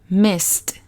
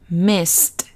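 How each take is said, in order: The two takes are said the same way.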